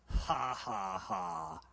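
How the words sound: The laugh sounds cynical and mocking.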